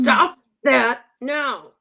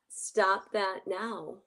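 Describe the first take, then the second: First: It is said in an agitated, uncalm way. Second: It is said calmly and assertively.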